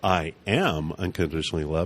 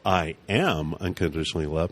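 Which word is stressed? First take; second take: am; am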